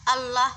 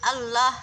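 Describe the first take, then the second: No difference in how they are said.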